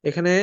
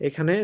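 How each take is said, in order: Both takes have the same delivery.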